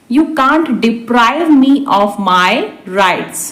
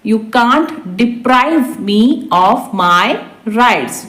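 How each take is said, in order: First: Said in the usual way. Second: Word by word for learners; slow repeat. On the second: Shown as a demonstration. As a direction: stretch it out, pause before the end. Teacher repeats translation word by word. (धीरे-धीरे, शब्द-दर-शब्द)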